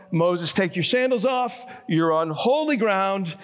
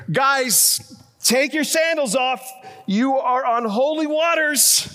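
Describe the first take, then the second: First: Lightly raised, measured divine call. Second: High, raised mock proclamation; mock calling out. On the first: Retold or imitated. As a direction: quote God calling to Moses, only mildly projected. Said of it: "A voice calls out". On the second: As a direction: playfully holler it as Jesus to the disciples. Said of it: "Jesus could have said here".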